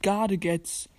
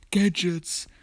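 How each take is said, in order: First: Gadgets drawn out as "GAH-de-gets"; own pronunciation of Gadgets. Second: Gadgets said "GED-jets", slowly; English pronunciation of Gadgets. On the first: Player claims only he knows English, Gadgets as gah-de-gets. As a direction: say Gadgets slowly, German-style, gah-de-gets. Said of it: "nur ich kann Englisch". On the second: Player rejects the usual Gadgets, said ged-jets. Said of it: "Alle sagen das immer falsch". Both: Shown as a demonstration.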